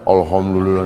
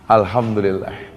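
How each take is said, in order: First: It is said gloomily, without a smile. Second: It is said cheerfully, with a smile. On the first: Nobody says the phrase this way. The speaker calls it wrong. "nggak ada" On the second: This is how the phrase is really said. The speaker calls it right. "selalu diucapkan dengan senyum"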